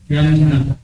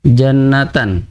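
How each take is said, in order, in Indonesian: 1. Kata ini berakhir dengan bunyi h yang lembut. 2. Kata ini berakhir dengan suku kata -tan yang utuh.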